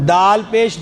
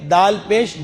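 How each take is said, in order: No difference in how they are said.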